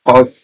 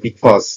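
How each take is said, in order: First: The word is said with one syllable. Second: The word is said with two syllables.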